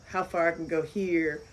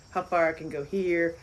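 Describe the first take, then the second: No difference in how they are said.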